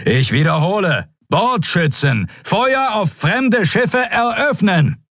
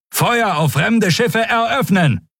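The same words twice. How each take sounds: First: Even higher, slow, insistent; repeated shouted order. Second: Much higher, slow firing command; shouted order. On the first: Admiral repeating the unanswered order, more insistent and shouted. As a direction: hammer the order home, slower and harder. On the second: Admiral commanding the gunners to fire, shouted. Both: A narrator's reading.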